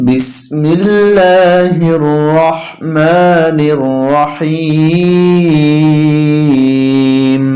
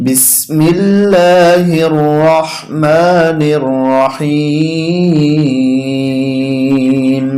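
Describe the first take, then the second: Both takes have the same delivery.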